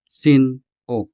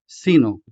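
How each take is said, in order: First: Sin, a sharp break, then o; sharp pause between syllables. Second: Said in the usual way. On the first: Shown as a demonstration. Teacher showing Ilonggo friends the break, sin-o clipped apart. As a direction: cut sin-o in two with a sudden stop. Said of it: "Note the sharp pause between the two syllables". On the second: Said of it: "If you don't pause between these two syllables".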